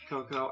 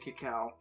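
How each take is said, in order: First: It is said with an ending like "co". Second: It is said with an ending like "cow". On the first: "I've heard people say it's pronounced cocoa" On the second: "I've always heard it pronounced cacao"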